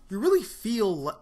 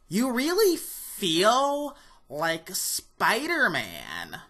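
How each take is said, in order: First: It is said in his own normal voice. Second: It is said in a put-on IGN reviewer voice.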